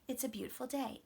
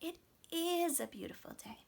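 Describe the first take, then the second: First: The verb is contracted and unstressed. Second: The verb is full and strongly stressed. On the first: A plain statement is made. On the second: The speaker agrees with the statement.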